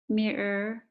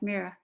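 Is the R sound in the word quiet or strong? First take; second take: strong; quiet. First: The R sound is said strongly. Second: The R sound is said quietly. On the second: "but mirror in Australia"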